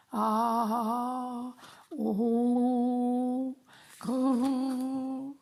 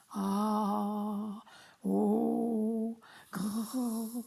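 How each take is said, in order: First: Louder, higher mock ogre growl; big growly voice. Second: A lightly growled voice warm-up; warming up a big voice. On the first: Dad shows the kids his big voice, hammed-up growl. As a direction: growl it out like a storybook monster. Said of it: "ça c'est de la grosse voix". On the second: Acted. Dad warms up his voice before the story, mock growl. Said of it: "je vais échauffer ma voix".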